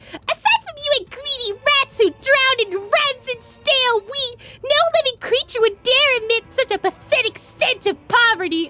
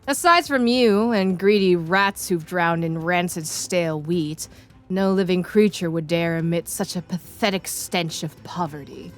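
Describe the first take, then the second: First: It is read in a put-on Paimon voice. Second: It is read in her normal voice.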